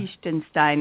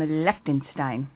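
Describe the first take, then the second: First: It is said with the local German sound. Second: It is said with plain English sounds.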